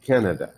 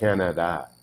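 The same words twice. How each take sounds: First: The last two vowels are reduced to schwa. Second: The last two vowels are full A sounds. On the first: The speaker calls it right. "they almost sound like an E" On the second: The speaker calls it wrong. "It's not a Canada"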